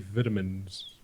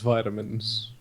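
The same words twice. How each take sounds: First: It is said with a British pronunciation. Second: It is said with an American pronunciation. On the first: "the U K English likes to say vitamins" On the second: "In American, it's vitamins"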